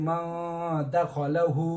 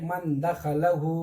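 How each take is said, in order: First: The n is hidden and carried through the nose. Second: The n is pronounced clearly, without nasal hiding. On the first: The speaker calls it right. "इसीलिए हम इख्फा करके पढ़ेंगे। कैसे" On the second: The speaker calls it wrong. "हम लोग कैसा पढ़ते हैं, ऐसा पढ़ना गलत है"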